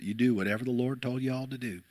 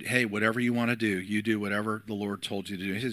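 First: A hint of a charming Southern accent; mild Southern accent. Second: Said in the usual way. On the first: Pastor quoting the church lady in a mild Southern accent. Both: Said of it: "she had this charming Southern accent".

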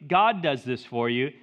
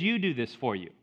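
First: "God" set up as the contrast, tune left rising; stress on God. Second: "You" stressed as the correction, tune falling. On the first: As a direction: lean on "God", ending unresolved. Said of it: "Notice it doesn't say". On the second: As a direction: lower pitch, lean on "You" and settle downward. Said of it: "It says". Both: Shown as a demonstration.

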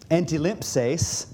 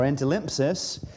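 First: "antilimpses" said slowly, syllable by syllable; first pronunciation. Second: "antilimpsis" with a short final "sis"; alternative pronunciation. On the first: Preacher giving the congregation a Greek word, slow, careful "antilimpses". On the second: Preacher offering the congregation another reading, "antilimpsis" ending in "sis". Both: Shown as a demonstration. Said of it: "or antilimpsis".

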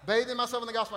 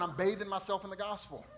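First: Myself lifted louder in the repeat; stress on myself. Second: Bathing leaned on, then the line falls; stress on bathing. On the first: Pastor echoing himself, stress on myself. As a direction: hit myself in the echo. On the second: Pastor to his church, stress on bathing. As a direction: push the word bathing. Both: Shown as a demonstration.

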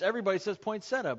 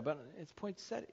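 First: Poinsettia said fast as "poin-setta", the casual way; wrong pronunciation. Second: Poinsettia said softly, carefully as "poin-set-tee-a"; correct pronunciation. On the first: Pastor to congregation, "poinsettia" the common way. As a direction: quickly toss off "poinsettia" the way everybody does. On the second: Pastor correcting congregation, "poinsettia" spelled out softly. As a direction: quietly correct them: "poinsettia" in full. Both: Shown as a demonstration.

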